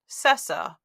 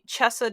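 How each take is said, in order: First: The word begins with an s sound. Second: The word begins with a ch sound. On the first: This is how an English reader would say it. "if we were speaking this in English, we would pronounce that Cessa" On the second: This is how it is said in Italian. "definitely Chessa does not come to mind"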